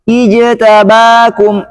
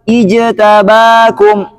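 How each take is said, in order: No difference in how they are said.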